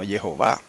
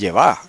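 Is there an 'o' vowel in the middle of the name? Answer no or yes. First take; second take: yes; no. First: The name is said with the middle o vowel. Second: The name is said without the middle o vowel. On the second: "leerlo como está escrito ahí, entonces diría"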